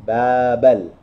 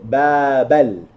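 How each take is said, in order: First: The two words are run together. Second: The two words are run together.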